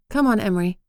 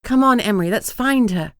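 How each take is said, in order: First: Gentle, coaxing and calm; soft. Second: Louder, brighter and pressing; rally him with energy; urging. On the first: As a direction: soothe him quietly. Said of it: "I said softly". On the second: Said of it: "hoping to tease a smile". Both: A narrator's reading.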